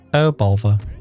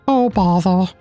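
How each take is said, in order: First: It is said in his normal voice. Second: It is said in a Winnie the Pooh voice.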